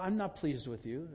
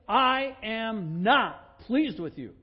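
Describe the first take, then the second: First: It is said in a mild, timid tone. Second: It is said in a firm, forceful tone. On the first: The displeasure sounds weak and half-hearted. "that's kind of Johnny Milquetoast" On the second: The displeasure is final and not open to debate. "Period. Exclamation point"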